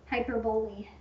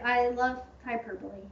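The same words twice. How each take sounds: First: Hyperbole said as HY-per-bowl, stress on HY, bole like bowl; wrong-syllable hyperbole. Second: Said in the usual way. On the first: Shown as a demonstration. Host jokingly mispronouncing Hyperbole to her co-host, as HY-per-bowl. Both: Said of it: "Putting the emphasis on the wrong syllable".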